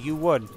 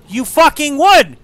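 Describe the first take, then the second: First: Said in the usual way. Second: High, loud, slow rage; shouted accusation; furious shout. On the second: Real, not acted. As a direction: roar at the game. Building rage.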